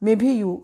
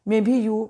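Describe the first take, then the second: Both takes have the same delivery.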